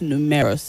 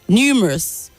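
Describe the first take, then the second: First: The stress is not on the first syllable. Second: The stress is on the first syllable. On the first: The speaker calls it wrong. "not numerous" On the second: The speaker calls it right. "The stress is only on the first syllable"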